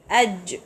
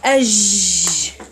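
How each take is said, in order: First: The final consonant is stopped short and crisp. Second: The final consonant is drawn out with running sound.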